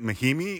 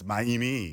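First: The name is said with an H sound. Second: The name is said without an H sound. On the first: The speaker calls it wrong. "isn't it Maimi?" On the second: The speaker calls it right. "You don't pronounce the H in French"

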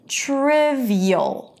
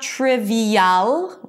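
First: The last vowel is a weak schwa. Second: The last vowel is a full 'a'. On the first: The speaker calls it right. "You hear it?" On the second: The speaker calls it wrong. "So it's not trivial. We don't pronounce the A here"

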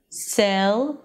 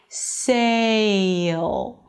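First: The vowel is one steady, unchanging sound. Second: The vowel glides from one sound to another. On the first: The speaker calls it wrong. "it is not sell, sell" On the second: The speaker calls it right. "but sail"

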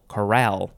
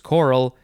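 First: The stress is on the second syllable. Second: The stress is on the first syllable. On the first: It is the noun spelled with a final E. "The emphasis for the one that has the E is on the second syllable" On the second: It is the adjective spelled without a final E. "the emphasis for the first one with no E is choral"

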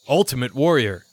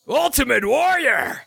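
First: It is said fairly calmly. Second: It is said with high excitement.

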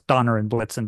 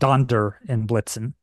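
First: The first name has no D sound inside it. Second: The first name has a D sound inside it. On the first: This is the common modern form. "everybody says, you know, it's Donner and Blitzen" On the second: This is the original form. "but it was originally Donder and Blitzen"

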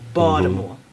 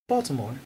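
First: It is said in a Baltimore accent. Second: It is said in a neutral, non-regional accent.

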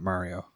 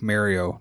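First: Mario is pronounced a non-Canadian way. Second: Mario is pronounced the Canadian way. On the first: "not Mario" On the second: "just like how we say Mario"

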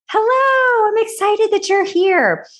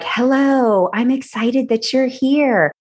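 First: It is said with big, over-the-top energy. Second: It is said with little, flat energy.

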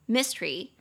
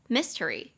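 First: The word is said with only two syllables. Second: The word is said with three full syllables. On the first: "当你念的比较快的时候，它其实会变成两个音节" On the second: "三个音节"

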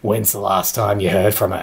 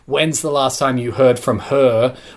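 First: The last words trail off and fade away. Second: The last words are said clearly to the end. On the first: "we just sort of trail off with the last bit. So it's like" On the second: "instead of saying"

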